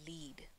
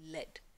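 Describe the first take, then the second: First: The vowel is long, rhyming with seed. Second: The vowel is short, rhyming with bed. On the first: It means to guide someone. "अगर मैं इसे use कर रही हूँ as a verb, तो इसका pronunciation होगा lead" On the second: It names a heavy metal. "जब हम इस शब्द को as a metal use करते हैं, इसकी pronunciation रहती है lead"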